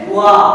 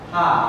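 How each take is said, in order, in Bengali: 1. এই অক্ষরটি w ধ্বনি দিয়ে শুরু হয়। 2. এই অক্ষরটি h ধ্বনি দিয়ে শুরু হয়। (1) "এইটার উচ্চারণ তখন আসবে হচ্ছে ও আ" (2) "হিরাগানায় এইটা আমরা হা শিখছি"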